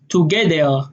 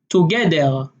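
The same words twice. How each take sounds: First: The middle consonant is a d sound. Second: The same.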